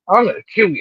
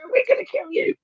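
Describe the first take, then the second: First: It is said in a deep man's voice. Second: It is said in a small, high voice.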